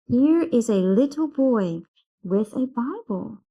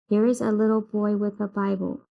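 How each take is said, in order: First: The voice rises and falls through the sentence. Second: The voice stays flat through the sentence. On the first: The speaker calls it right. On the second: The speaker calls it wrong.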